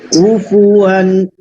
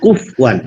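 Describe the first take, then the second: First: The vowel after the first syllable is kept. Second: The vowel after the first syllable is dropped. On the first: The speaker calls it right. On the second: The speaker calls it wrong.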